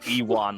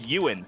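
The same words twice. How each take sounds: First: The name is said to sound like Ewok. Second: The name is said without the Ewok-like sound. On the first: The speaker calls it wrong. "I called him Ewan, like he was a fucking Ewok" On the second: The speaker calls it right. "it's pronounced Ewan"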